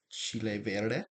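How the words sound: It is said with a Mexican Spanish accent. "the first one I say is gonna be Mexican version"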